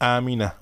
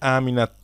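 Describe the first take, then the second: First: The word ends without any t sound. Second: The word ends with a clear t sound. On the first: The speaker calls it right. "বরং বলি আমিনা" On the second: The speaker calls it wrong. "বলি না যে আমিনাত"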